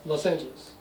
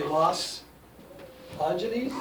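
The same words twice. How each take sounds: First: "Los Angeles" joined as one word; words run together. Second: "Los" and "Angeles" split by a long pause; split article and noun. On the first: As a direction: glide from "Los" straight into "Angeles", no break. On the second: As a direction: say "Los", stop, then "Angeles" as a separate word. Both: Shown as a demonstration. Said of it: "it's almost run together".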